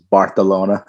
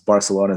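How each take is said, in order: First: The c is said with a th sound. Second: The c is said with an s sound.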